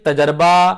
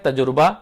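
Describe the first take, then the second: First: An 'a' vowel follows the 'j' sound. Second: A 'u' vowel follows the 'j' sound. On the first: "तजर्बा नहीं होगा" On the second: "अगर आपको रियायत लेनी भी है"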